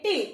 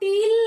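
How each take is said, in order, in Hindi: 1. स्वर को छोटा ही रखा जाता है। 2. स्वर को लंबा खींचा जाता है। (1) "बेटा छोटी ही है" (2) "टील नहीं, बहुत खींचेंगे नहीं"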